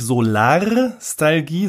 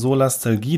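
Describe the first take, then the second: First: It has an r sound after 'Sola'. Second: It has no r sound after 'Sola'. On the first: The speaker calls it wrong. "Also nicht Solarstalgie" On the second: The speaker calls it right. "sondern Solastalgie"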